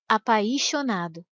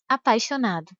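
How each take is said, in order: First: The i is strong and drawn out. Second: The i is weak and very short. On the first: The speaker calls it wrong. "Se o i tivesse um som mais forte e mais demorado" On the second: The speaker calls it right. "e não"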